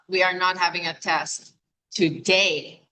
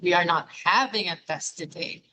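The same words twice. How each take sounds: First: The word today carries the main stress. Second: The word having carries the main stress. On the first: The test is on another day. "which means not today" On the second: Perhaps a different verb should replace having. "Is it not having?"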